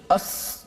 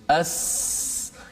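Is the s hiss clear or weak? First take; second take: weak; clear. First: The s hiss comes out weak and distorted. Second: The s hiss comes out sharp and clear. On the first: The speaker calls it wrong. "kalau kita letakkan hujung lidah ke langit, tak boleh ... dia tak keluar angin sin yang betul" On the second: The speaker calls it right. "cuba matikan dia supaya nampak lebih jelas"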